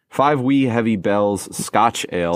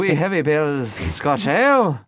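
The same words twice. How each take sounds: First: It is read in the speaker's ordinary accent. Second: It is read in a put-on Irish-sounding accent.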